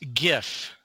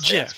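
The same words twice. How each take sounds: First: It begins with a hard g sound. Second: It begins with a soft j sound. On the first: The speaker calls it right. "it stands for graphics interchange format" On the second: The speaker calls it wrong. "not GIF"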